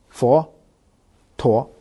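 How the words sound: It begins with an f sound and a t sound. "以今天的我们的所谓的北京话普通话来说的话呢"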